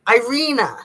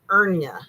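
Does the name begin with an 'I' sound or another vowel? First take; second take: I sound; another vowel. First: The name begins with the 'I' vowel sound. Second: The name begins without the 'I' vowel sound. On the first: The speaker calls it right. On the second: The speaker calls it wrong.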